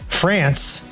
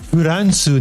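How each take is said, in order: First: The name is said with English sounds. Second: The name is said with Japanese syllables. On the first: A Japanese listener would not understand it. The speaker calls it wrong. "They wouldn't understand what you're saying" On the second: A Japanese listener would understand it. The speaker calls it right. "You'd have to say"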